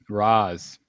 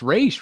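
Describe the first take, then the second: First: The name ends with a 'z' sound. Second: The name ends with a 'sh' sound. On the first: The speaker calls it right. "he likes Raz Al Ghul" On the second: The speaker calls it wrong. "It's Raish, right?"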